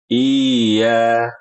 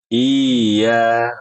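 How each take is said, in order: The two takes are said the same way.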